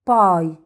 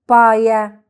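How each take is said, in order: First: It ends without an extra vowel sound. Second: It ends with an extra vowel sound. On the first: The speaker calls it right. "ننطقه باسمه" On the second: The speaker calls it wrong. "مش هنقول بايا"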